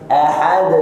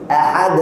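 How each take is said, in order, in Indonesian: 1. Bunyi akhir memudar perlahan tanpa hentian. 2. Bunyi akhir dipotong dengan hentian glotis. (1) "Suaranya hilang tapi pelan-pelan" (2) "kita tambah hamzah. Ini salah"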